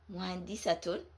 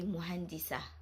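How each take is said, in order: First: The ending is said with a t sound and vowel. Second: The ending is said with a final h sound. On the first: "with a haraka is pronounced as a ta" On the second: "with a sukoon is pronounced as a ha"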